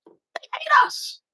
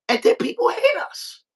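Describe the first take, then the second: First: Whispered, slow and secretive. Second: Much higher, mock complaining voice; high put-on voice. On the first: Acted. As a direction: breathe it out slowly, barely voiced. Echo of the line before. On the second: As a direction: squeak it out like a whiny mock voice. Mocking how others see them.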